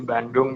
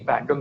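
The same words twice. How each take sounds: First: The word is said with an added n sound. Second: The word is said without an added n sound.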